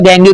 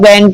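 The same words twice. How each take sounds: First: गैंगू said with an added u vowel at the end; long pronunciation. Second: गैंग said short, ending on the ng with no vowel after; short pronunciation. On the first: Teacher showing students the other way to say it, गैंगू with oo. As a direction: say गैंगू with a trailing oo. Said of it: "कई लोग गैंग कहते हैं". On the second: Teacher showing students one way to say it, गैंग short. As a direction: say गैंग clipped at the ng. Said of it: "कई लोग गैंगू कहते हैं". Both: Shown as a demonstration.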